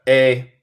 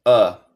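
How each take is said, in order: First: "A" said like the letter name, "ay"; full-vowel "A". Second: "a" said as "uh"; reduced-vowel "a". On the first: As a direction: isolate "A" as a clear "ay". (la "A" pronunciada "ei") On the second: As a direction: isolate "a" as a neutral "uh". (la "a" pronunciada como "uh") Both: Shown as a demonstration. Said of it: "Se puede elegir".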